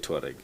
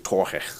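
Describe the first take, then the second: First: The name is said in an English style. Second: The name is said in a German style. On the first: "I say Touareg" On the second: "if it's in Germany they're gonna say Torge"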